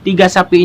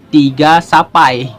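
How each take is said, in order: First: The word ends with an 'ee' vowel. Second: The word ends with an 'eye' vowel.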